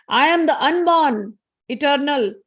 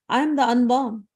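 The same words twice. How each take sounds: First: Higher, louder and slow, leaning on am; proud declaration. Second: Said in the usual way. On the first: Acted. Chandi repeats to the messenger, now proudly declaimed. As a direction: proclaim it like a goddess.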